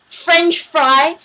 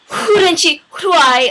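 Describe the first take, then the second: First: It is said with F sounds. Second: It is said with H sounds.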